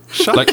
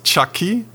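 First: The name begins with an sh sound. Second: The name begins with a ch sound. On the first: The speaker calls it right. "Like with an S" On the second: The speaker calls it wrong. "Not Chucky"

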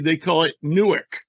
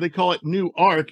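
First: It is said the way New Jersey locals say it. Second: It is said the way Delaware locals say it. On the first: "If you're in New Jersey, they call it Newark" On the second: "if you're in Delaware, they call it Newark"

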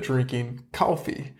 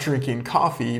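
First: Coffee is said with a Southern American accent. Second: Coffee is said with a general American accent. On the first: "but drinking coffee" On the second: "not drinking coffee"

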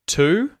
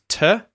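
First: The vowel is a full 'oo' sound. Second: The vowel is a reduced schwa sound. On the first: "which words do you hear having the schwa vowel sound inserted in instead of the usual vowel sound" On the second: "To becomes to"

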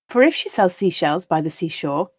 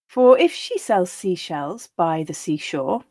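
First: The line is read at a natural pace. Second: The line is read at a slow pace. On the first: "then once at that more natural pace" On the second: "I'll read each line slowly"

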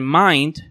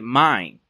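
First: The final D sound is pronounced. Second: The final D sound is dropped. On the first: The speaker calls it right. "En lugar de mind" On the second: The speaker calls it wrong. "podríamos decir mind"

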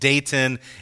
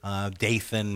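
First: The middle consonant is a hard T sound. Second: The middle consonant is a soft TH sound. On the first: This is the original Hebrew form of the name. "it's still a hard T sound in Hebrew" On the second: This is the familiar English form of the name. "Dathan maybe is how you know it"

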